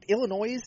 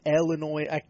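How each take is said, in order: First: The final s sound is pronounced. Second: The final s sound is silent. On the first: The speaker calls it wrong. "You're just adding on an extra S that doesn't need to be there" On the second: The speaker calls it right. "fine. I understand that's just a regional dialect type of deal"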